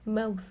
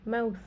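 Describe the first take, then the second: The two takes are said the same way.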